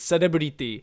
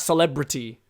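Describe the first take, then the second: First: Japanese pronunciation, every vowel sounded out. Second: English pronunciation, flowing with reduced vowels. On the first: The speaker calls it right. "You have to sound out every single vowel there" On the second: The speaker calls it wrong. "It's not celebrity, which kind of just flows"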